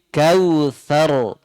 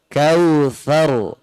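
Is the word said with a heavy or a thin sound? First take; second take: heavy; heavy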